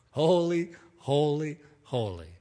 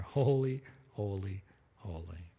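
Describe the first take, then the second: First: Rising exclamation, falling away; awed cry. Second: Fading to a near whisper, much softer; hushed awe. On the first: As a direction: cry it out like the angels, then let it fade. Seraphim crying out, acted. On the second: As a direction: let each holy die away in wonder. Beings just standing there, hushed. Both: Acted.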